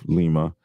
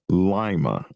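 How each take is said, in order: First: Lima is pronounced the Peruvian capital's way. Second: Lima is pronounced the Ohio town's way. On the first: It names the capital of Peru. "instead of Lima" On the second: It names the town in Ohio. "Ohio, they pronounce it Lima"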